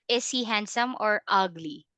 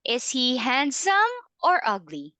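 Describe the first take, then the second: First: The pitch does not rise then fall. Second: The pitch rises on handsome, falls on ugly. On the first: The speaker calls it wrong. "Not not that one" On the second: The speaker calls it right. "it's going to be up and down"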